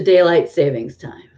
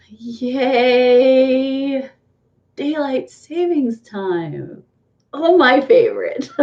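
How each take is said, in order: First: Said in the usual way. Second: Higher-pitched, drawn-out mock delight; sarcastic cheer. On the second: Vlogger mocking the clock change to viewers, sarcastic cheer. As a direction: stretch it out with fake enthusiasm.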